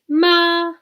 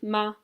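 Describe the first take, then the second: First: The pitch stays level and flat. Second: The syllable is short and light. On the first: It means mother. "the first tone in Chinese is a flat tone" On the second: It marks a question. "a neutral tone, which is just like very light"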